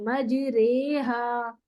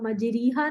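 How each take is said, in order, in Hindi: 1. 'r' के बाद का स्वर मध्य 'e' है। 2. 'r' के बाद का स्वर स्पष्ट 'ee' है। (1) "उसको थोड़ा मजहूल पढ़ते हैं, उसको हम एक ही साउंड पे पढ़ते हैं" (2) "उसको हम मजरीहा नहीं पढ़ते"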